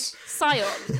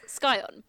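First: The word starts with a plain S sound. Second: The word starts with an SK sound. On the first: The speaker calls it wrong. "I don't like Scion" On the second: The speaker calls it right. "It's Scion"

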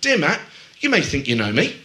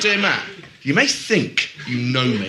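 First: The line is said in a light, breezy tone. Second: The line is said in a dark, threatening tone. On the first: The writer is just saying she is a little different. "So if you say it in a breezy way" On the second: The writer is warning the reader. "it sounds like a bit of a threat"

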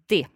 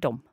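First: The word is said with no m sound. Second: The word is said ending in an m sound. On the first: This is the old-fashioned pronunciation. "in olden days, you said de" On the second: This is the modern pronunciation. "nowadays we say dom"

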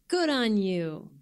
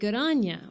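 First: The last word is a full, stressed 'you'. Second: The last word is a reduced, unstressed 'ya'. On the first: The speaker calls it right. "what I thought was going to come out as" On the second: The speaker calls it wrong. "always said with that intonation"

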